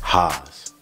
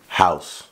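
First: The vowel is a broad, flat 'ah' sound. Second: The vowel is the usual 'ow' sound. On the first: "but they say Haas. It's like some southern shit" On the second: "Haas is like house"

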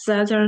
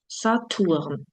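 First: The word is pronounced the English way. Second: The word is pronounced the German way. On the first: The speaker calls it wrong. "Saturn не читаємо англійською" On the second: The speaker calls it right. "Німецькою"

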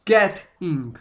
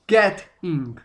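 First: British accent, the t crisp and clearly marked. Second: British accent, the t crisp and clearly marked.

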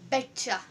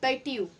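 First: The words blend into one reduced word. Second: The two words are said separately and fully. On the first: "It would sound like betcha" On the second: "bet plus you"

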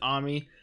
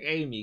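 First: The name begins with an 'ah' vowel. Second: The name begins with an 'ay' vowel. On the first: This is how the characters in the show say it. "they pronounce it Ami" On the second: This is the familiar English name. "I'm just going to keep saying Amy"

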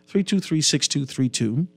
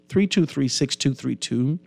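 Both takes have the same delivery.

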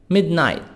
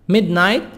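The two takes are said the same way.

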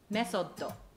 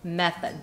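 First: It is said in Japanese katakana style, 'mesotto'. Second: It is said in English style, 'method'. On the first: "next katakana English word" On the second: "the English pronunciation of mesotto is method"

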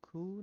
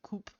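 First: The word ends in a vowel with no p. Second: The word ends with a clear p sound.

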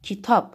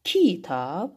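First: The stress is on the second syllable. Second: The stress is on the first syllable. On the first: The speaker calls it right. "vurğu düşəcək tabın üzərinə" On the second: The speaker calls it wrong. "hər ikisini bir dəfə qüvvətli"

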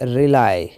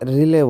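First: The word ends with a 'lie' sound. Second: The word ends with a 'lay' sound. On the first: The speaker calls it right. "এটা হচ্ছে রিলাই" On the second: The speaker calls it wrong. "আমরা এটাকে অনেক সময় রিলে বলি, তো আসলে কিন্তু সেটা না"

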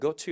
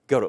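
First: The t is released with a clear burst. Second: The t is softened and blended into the vowel. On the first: The speaker calls it wrong. "t를 터트려서 go to 이렇게 발음 안 해요" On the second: The speaker calls it right. "항상 고트는요. go라고 발음해요"

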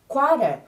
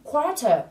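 First: The middle consonant sounds like a soft D. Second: The middle consonant is a clear T sound.

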